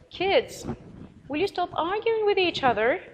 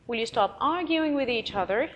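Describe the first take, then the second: First: Put-on pitched high and raised, telling the kids to stop; parent scolding kids. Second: Said in the usual way. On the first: Shown as a demonstration. Parent telling arguing children to stop, high and raised. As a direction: call the squabbling kids to order from up high. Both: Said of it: "You're talking to the children".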